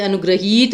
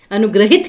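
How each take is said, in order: First: अनुग्रहित stretched to "anugraheet"; long final ee. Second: अनुग्रहित ending in quick "hit"; short final i. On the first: Teacher showing the error, अनुग्रहित ending "heet". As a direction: hold the last vowel of अनुग्रहित as ee. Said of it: "अनुग्रहित नहीं कहते हम". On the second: Teacher correcting students, अनुग्रहित with short i. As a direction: keep the last i of अनुग्रहित short. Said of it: "अनुग्रहित कहते हैं". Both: Shown as a demonstration.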